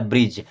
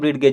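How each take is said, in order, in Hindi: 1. यह एक एकल 'j' ध्वनि से खत्म होता है। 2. यह अलग d और g ध्वनियों से खत्म होता है। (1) "इसे पढ़ना क्या" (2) "जो कि गलत है"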